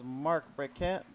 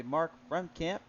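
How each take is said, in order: First: "Brekamp" said with a plain k and no m; first name read as "Brekamp", unsure; Brekamp, first try. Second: "Bremkamp" with an m before the k; Bremkamp, corrected. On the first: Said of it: "that is gonna be Mark Bremkamp". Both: Shown as a demonstration.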